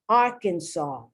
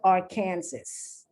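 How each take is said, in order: First: The final S is silent. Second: The final S is pronounced. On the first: The speaker calls it right. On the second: The speaker calls it wrong.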